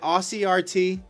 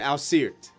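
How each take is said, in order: First: It starts with 'Aussie', then letters R and T. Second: It is said as a single blended word. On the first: The speaker calls it right. "Aussie as an Australian" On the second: The speaker calls it wrong. "I've been calling you Asirt the whole time"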